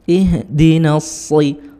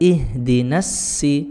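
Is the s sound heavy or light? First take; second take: heavy; light. First: The s is heavy, with the tongue back raised. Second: The s is light, with the tongue kept low. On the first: The speaker calls it right. "punggung lidahnya angkat ke atas langit-langit" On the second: The speaker calls it wrong. "Kalau tidak diangkat"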